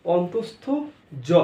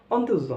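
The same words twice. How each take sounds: First: "অন্তস্থ" rising, pause, then "জ"; corrected, separated pronunciation. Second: "অন্ত্যেজ জ" merged as on-tej-jo; common mispronunciation. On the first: Teacher drilling the right name, full "অন্তস্থ", pause, separate "জ". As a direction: split "অন্তস্থ জ" into on-tos-tho, gap, jo. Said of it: "অন্ত্যেজ জ নয়". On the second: Teacher showing the usual mistake, "অন্ত্যেজ জ" squashed to ontejjo. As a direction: squash "অন্ত্যেজ জ" into one short word. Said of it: "এটা অন্ত্যেজ জ নয়". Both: Shown as a demonstration.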